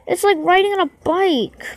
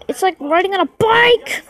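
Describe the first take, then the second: First: Resigned repeat. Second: Raised pitch, jumping up on "bike"; exasperated exclamation. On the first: Player still struggling with balance, resigned repeat. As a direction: repeat it as a weary whine, letting "bike" sag. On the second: Player complaining about balancing the ball, exasperated exclamation. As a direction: exclaim it, punching the last word. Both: Real, not acted.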